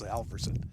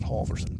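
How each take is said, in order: First: The first syllable has a short 'a' like 'pal'. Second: The first syllable has an 'aw' sound like 'ball'. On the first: It follows the name's single-L spelling. "I'm the only one that goes Halverson" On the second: It is how everyone else says the name. "not Halverson"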